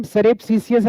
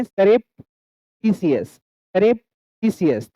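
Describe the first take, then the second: First: Said in the usual way. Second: "surreptitious" very slow, long pause after "surrep"; broken into syllables. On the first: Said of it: "अगर हम पढ़ रहे हैं". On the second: Shown as a demonstration. Teacher breaks a hard word for learners, split syllable drill. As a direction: split "surreptitious": "surrep" rising, "titious" falling. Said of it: "एक syllable में इसको हमने तोड़ा".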